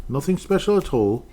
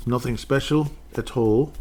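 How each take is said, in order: First: "special" pushed up high on the repeat; emphatic repeat, high. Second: Said in the usual way. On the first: Shown as a demonstration. Dismissing the running back, "special" stressed high. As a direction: hit "special" harder and higher.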